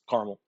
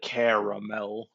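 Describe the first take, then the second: First: The word is said shorter with fewer syllables. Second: The word is fully enunciated with an extra syllable. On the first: The speaker calls it right. "just caramel" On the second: The speaker calls it wrong. "there's too much enunciation going on"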